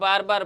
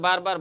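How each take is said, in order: No difference in how they are said.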